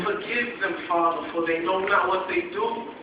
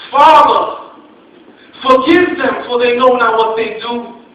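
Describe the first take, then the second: First: Softer, hushed prayer; quiet plea. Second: Loud anguished cry, pitched higher. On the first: Jesus quietly asking the Father to forgive them, hushed. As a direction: breathe it as a gentle plea. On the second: Jesus on the cross crying out to the Father, loud and anguished. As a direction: cry it out to heaven with everything left. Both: Acted.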